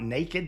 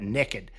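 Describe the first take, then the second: First: It is said in a standard accent. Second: It is said in a Southern accent.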